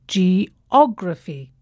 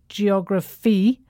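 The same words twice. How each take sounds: First: The stress is on the second syllable. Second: The stress is not on the second syllable. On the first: The speaker calls it right. "the stress falls on the third syllable from the end" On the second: The speaker calls it wrong.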